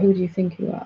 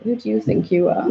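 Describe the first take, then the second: First: Open, gently questioning; curious self-inquiry. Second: Mock-contemptuous challenge, falling at the end; scornful put-down. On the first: Shown as a demonstration. Asking oneself in open, curious self-inquiry. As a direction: ask it as a genuine inquiry into yourself. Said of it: "not the self-inquiry". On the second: Inner voice mocking her peace with scorn. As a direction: sneer it like the doubting inner voice. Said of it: "Not, it was like".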